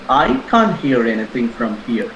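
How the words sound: The stress is on the word I. Someone else may be able to hear. "I stressed on I"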